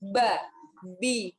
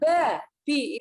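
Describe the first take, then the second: First: The syllables are said with heavy breathy aspiration. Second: The syllables are said cleanly without extra breath. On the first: The speaker calls it wrong. "Nafasnya ya mungkin kalau saya boleh bilang agak kemayu" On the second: The speaker calls it right. "ba, bi itu natural ya"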